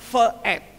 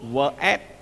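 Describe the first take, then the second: First: The first word starts with a v sound. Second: The first word starts with a w sound. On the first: The speaker calls it wrong. "kenapa tidak ve et?" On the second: The speaker calls it right. "Faktanya membacanya wa"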